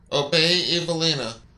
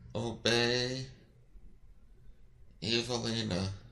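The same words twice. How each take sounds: First: It is said with more force. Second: It is mumbled quietly.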